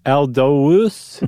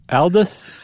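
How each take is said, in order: First: "Aldous" said as AL-doh-us with a long O; swapped vowels. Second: "Aldous" said quickly as AL-dus; short vowel. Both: Shown as a demonstration. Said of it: "you're swapping the U and the O".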